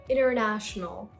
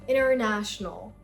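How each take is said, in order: The two takes are said the same way.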